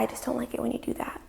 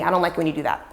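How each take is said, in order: First: It is said timidly and hesitantly. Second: It is said harshly and aggressively.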